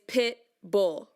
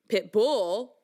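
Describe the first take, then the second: First: The stress is on the first syllable. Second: The stress is on the second syllable. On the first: The speaker calls it right. "the accent is pit bull" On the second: The speaker calls it wrong. "It's not pit bull, right? That sounds weird"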